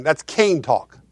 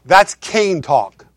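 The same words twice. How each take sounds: First: Said in the usual way. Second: Each word laid down slowly; slow, deliberate repeat. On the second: Shown as a demonstration. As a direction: say it again, slow and weighty. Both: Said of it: "Let me say it again".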